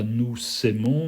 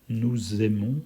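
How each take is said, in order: First: The words are linked with an S sound. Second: The words are linked with a Z sound. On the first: The speaker calls it wrong. "on ne dit pas nous s'aimons" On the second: The speaker calls it right. "on dit le son Z"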